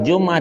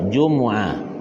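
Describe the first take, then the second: First: The middle vowel is dropped, giving two syllables. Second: The middle u vowel is kept, giving three syllables. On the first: The speaker calls it wrong. "Orang baca Jum'ah dimatikan" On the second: The speaker calls it right. "yang pasihnya di dhammahkan dua"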